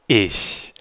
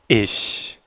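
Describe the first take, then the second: Both takes have the same delivery.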